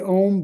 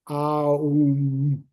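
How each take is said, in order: First: It is said as a single 'om' sound. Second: It is said as separate 'ah', 'u', 'mm' sounds. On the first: This is the usual everyday way of saying it. "we say Om" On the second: This is the true form of the syllable. "but it's actually Aum"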